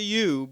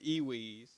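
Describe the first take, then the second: First: The word is said as one syllable. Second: The word is said as two syllables. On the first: The speaker calls it right. "not not the U" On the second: The speaker calls it wrong. "but the Ewees"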